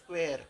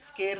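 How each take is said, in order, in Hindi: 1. यह 'skw' आवाज़ से शुरू होता है। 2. यह सादी 'sk' आवाज़ से शुरू होता है। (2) "स्केर नहीं"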